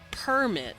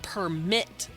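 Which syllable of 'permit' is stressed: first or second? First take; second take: first; second. First: The stress is on the first syllable. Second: The stress is on the second syllable. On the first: It is a piece of paper. "I put stress on the first syllable" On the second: Someone allowed something. "You put stress on the second syllable"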